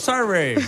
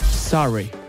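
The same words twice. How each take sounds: First: It is said with an Italian accent. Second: It is said with a natural English accent. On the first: The speaker calls it wrong. "l'ha detto come un italiano" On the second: The speaker calls it right. "È più diretta la mia"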